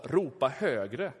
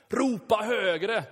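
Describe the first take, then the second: First: 2 a slow, drawn-out taunt, read lightly; 3 lightly voiced mocking prophet; 4 understated scripture taunt; 1 teasing. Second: 3 goad them with a slow mocking call; 4 hammed-up prophet taunting the crowd; 1 mocking shout. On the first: A narrator's reading. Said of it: "retades Elia med dem och sa". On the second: Shown as a demonstration. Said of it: "repeats the taunt aloud".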